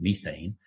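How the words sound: It is said with an English accent.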